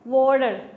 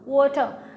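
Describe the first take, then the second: First: It is said in an American accent. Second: It is said in a British accent, no r. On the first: "जो Americans होते हैं बोलते हैं वाटर" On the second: "जो British होते हैं वो लोग बोलते हैं वाटर ... वो लोग आर प्रोनाउंस करते नहीं"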